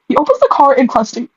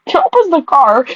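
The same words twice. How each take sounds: First: Said in the usual way. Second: Rereading the line through a laugh; laughing while reading. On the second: Real, not acted. Reader laughing at her own odd sentence. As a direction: giggle out the words as you reread. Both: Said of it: "Am I reading right?".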